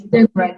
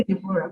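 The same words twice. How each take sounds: First: Deborah in two syllables as Deb-rah; silent O. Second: Deborah in three syllables with the O sounded; O pronounced. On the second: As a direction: say Deborah as De-bo-rah, O voiced. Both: Shown as a demonstration. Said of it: "The O is silent".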